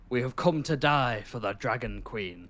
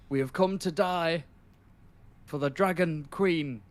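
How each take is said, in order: First: The voice falls at the end like a statement. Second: The voice rises at the end like a question. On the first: It is a firm declaration. The speaker calls it right. "He should have said" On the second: It sounds like he is asking. The speaker calls it wrong. "He's almost like asking it like a question"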